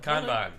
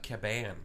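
First: The middle n sound is clearly pronounced. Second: The middle n sound is left out. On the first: The speaker calls it right. "It's not a silent N" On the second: The speaker calls it wrong. "I would call that Kaban"

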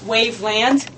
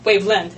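First: The last syllable is said as 'land'. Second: The last syllable is said as 'lind'.

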